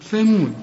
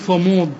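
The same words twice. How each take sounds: First: The first consonant sounds light and thin. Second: The first consonant sounds heavy and emphatic. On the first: The speaker calls it right. "هنا الثاء مرققة" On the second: The speaker calls it wrong. "ولا تقول ثمود"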